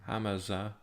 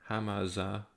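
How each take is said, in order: Both takes have the same delivery.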